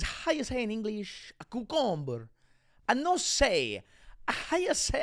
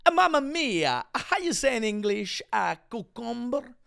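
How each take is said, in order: First: Higher-pitched mock Spanish accent; fake Spanish accent. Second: High-pitched cartoon Italian accent; mock Italian accent. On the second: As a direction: let the fake Spanish slip into hammed-up Italian. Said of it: "Am, am I doing Italian?".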